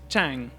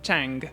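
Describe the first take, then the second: First: It ends on the nasal with no G sound. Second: It ends with an audible hard G sound. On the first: The speaker calls it right. "should be pronounced chang" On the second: The speaker calls it wrong. "not chang"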